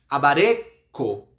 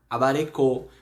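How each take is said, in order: First: The stress falls on the second-to-last syllable. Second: The stress falls on the final syllable. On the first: The speaker calls it right. "a gente dá importância à sílaba anterior" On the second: The speaker calls it wrong. "Se fosse ler na regra que eu falei anterior sobre as tonicidades, a gente leria essa palavra como abarecô"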